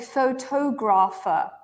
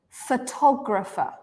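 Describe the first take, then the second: First: The first vowel is a full O sound. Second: The first vowel is a reduced uh sound. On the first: The speaker calls it wrong. "I don't say photographer, right?" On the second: The speaker calls it right. "this nice O sound changes to a sound called schwa"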